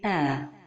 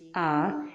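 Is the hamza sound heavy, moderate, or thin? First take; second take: moderate; heavy. First: The hamza is neither heavy nor thin. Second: The hamza is made heavy and emphatic. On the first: The speaker calls it right. "la prononciation correcte est" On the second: The speaker calls it wrong. "Il ne faut pas emphatiser la lettre Hamza comme ceci"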